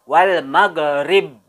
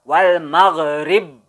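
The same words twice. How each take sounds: No difference in how they are said.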